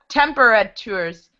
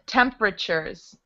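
First: The 'tu' part is said with a t sound. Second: The 'tu' part is said with a ch sound. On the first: The speaker calls it wrong. "So it looks like temperatures, but it's not pronounced that way" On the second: The speaker calls it right. "That's how we pronounce it"

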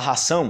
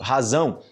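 First: The middle consonant is a voiceless s sound. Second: The middle consonant is a voiced z sound. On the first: The speaker calls it wrong. "fala ração" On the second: The speaker calls it right. "uma pronúncia que o pessoal erra muito em português, tipo razão"

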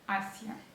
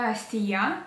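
First: The stress falls on the first syllable. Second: The stress falls on the i sound. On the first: The speaker calls it right. "там і не наголошена, а Асія" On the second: The speaker calls it wrong. "не Асія"

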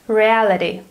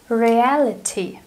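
First: The final consonant sounds like a soft D. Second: The final consonant is a clear T. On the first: "the sound T in American English becomes D if it goes between two vowels" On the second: "British English sounds completely different"

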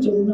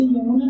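First: The word begins with a j sound. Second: The word begins with a y sound. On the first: "वाणी हर जगह जमुना होता है" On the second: "जैसे यमुना नहीं होता"

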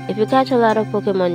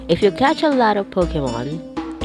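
First: The sentence is read at a fast pace. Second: The sentence is read at a slower pace. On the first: The speaker calls it wrong. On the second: The speaker calls it right.

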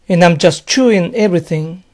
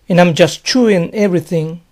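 The two takes are said the same way.

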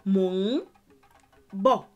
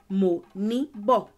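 First: The middle sound is a bare nasal hum. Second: The middle sound is a full syllable ni. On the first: The speaker calls it right. "you say mo ng bo" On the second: The speaker calls it wrong. "you don't say mo ni bo"

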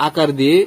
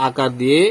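No difference in how they are said.

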